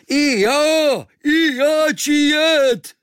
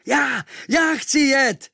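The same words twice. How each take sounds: First: Very high, loud and slow cry; Kvíkvék shouts to join in; eager shout. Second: High, loud, slow eager shout; shouting at full lungs. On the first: Kvíkvék shouts to the sailors to take him too, very high and loud. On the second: The boy shouts to the sailors to take him, high and loud. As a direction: yell to be picked for the ship. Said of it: "volal jsem z plných plic". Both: Acted.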